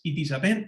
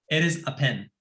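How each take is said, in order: First: Each word is said separately with full vowels. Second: 'It is' is blended into one reduced word. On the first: The speaker calls it wrong. "pero no es it is a pen" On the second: The speaker calls it right. "es eres"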